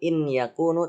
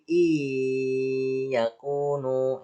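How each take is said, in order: First: The n sound is clearly pronounced before y. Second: The n sound disappears, merging into the y. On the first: The speaker calls it wrong. "bukan in yakunu" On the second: The speaker calls it right. "Nun matinya dimasukkan ke dalam huruf ya sehingga nun matinya hilang"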